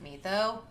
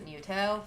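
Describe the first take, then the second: First: The name is said the way it is spelled. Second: The name is said with different vowel sounds. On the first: "like you would pronounce it Mitho" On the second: "but instead they pronounce it Muto"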